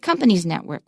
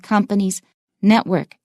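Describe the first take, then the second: First: The stress falls on the word company's. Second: The stress falls on the word network. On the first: The speaker calls it wrong. "we don't say" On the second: The speaker calls it right. "We say"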